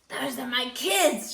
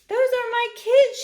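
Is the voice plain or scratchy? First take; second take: scratchy; plain. First: It is said in a scratchy voice. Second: It is said in a plain voice.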